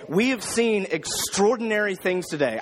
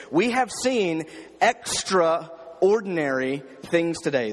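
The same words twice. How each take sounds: First: Said in the usual way. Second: "We have seen extraordinary things today" said slowly, leaning on "have"; with emphasis. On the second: Shown as a demonstration. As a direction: stretch out "have" and each word slowly. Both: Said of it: "I tried to read it with emphasis".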